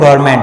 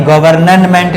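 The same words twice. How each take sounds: First: गवर्नमेंट as gormeṇṭ; silent first N. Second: गवर्नमेंट with the first N said; wrong sounded first N. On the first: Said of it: "इसे पढ़ते हैं गवर्नमेंट". (गवर्नमेंट, पहला एन मौन) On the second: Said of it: "गवर्नमेंट नहीं पढ़ते हैं". (गवर्नमेंट, पहला एन बोलकर (गलत)) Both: Shown as a demonstration.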